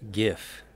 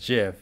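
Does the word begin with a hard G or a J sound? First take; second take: hard G; J sound. First: The word begins with a hard g sound. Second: The word begins with a soft j sound. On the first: The speaker calls it wrong. "the incorrect version of GIF" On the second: The speaker calls it right. "you say it correctly as Jif"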